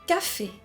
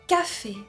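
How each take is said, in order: No difference in how they are said.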